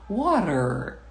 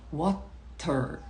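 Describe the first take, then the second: First: It is said with an American accent. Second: It is said with a British accent. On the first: "muito perto do sotaque americano" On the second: "muito perto do sotaque britânico"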